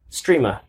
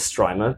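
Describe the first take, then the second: First: The vowel sounds like the one in stream. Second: The vowel sounds like the one in stripe. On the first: "Guess how it was said to me when I went to the booth" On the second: "I say it as Strimer because S-T-R-I, stripe"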